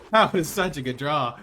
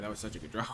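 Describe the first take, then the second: First: Suddenly loud, gleeful exclamation; loud elation. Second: Said in the usual way. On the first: Real, not acted. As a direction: burst out celebrating the draw. Loud repeat celebrating the draw.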